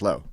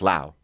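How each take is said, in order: First: The vowel sounds like the one in go. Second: The vowel sounds like the one in cow. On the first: This is how some cousins say the name. "some cousins who are like low" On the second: This is how the grandparents say the name. "my grandparents are like Lao"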